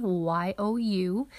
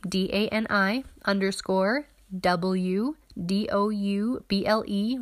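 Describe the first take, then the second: First: Quick run through the letters; rapid spelling. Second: Careful letter-by-letter spelling. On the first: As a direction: rattle off the letters very fast. Rattling off the handle again. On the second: Spelling out her Instagram handle. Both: Shown as a demonstration.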